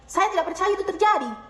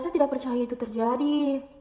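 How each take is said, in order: First: It sounds angry, high-pitched and firm. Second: It sounds shocked and startled. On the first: "Marah, nada tinggi, tegas"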